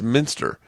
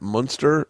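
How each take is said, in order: First: The first vowel sounds like the one in sit. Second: The first vowel sounds like the one in cup. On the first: The speaker calls it right. "and it's Minster" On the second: The speaker calls it wrong. "you're saying his name wrong"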